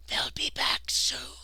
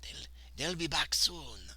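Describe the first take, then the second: First: Very slow, stretched-out whisper; reedy whisper. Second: Slow, lightly attempted Italian accent; a tentative go at an Italian accent. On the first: A narrator's reading. Hidden man warning that they will return, reedy whisper. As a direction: whisper the warning with hardly any voice. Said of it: "barely a reedy whisper". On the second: Trying a voice for the Italian worker, shaky Italian accent. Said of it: "he's got an Italian accent".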